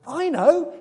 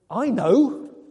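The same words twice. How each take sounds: First: It sounds excited and inspired. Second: It sounds irritated and impatient.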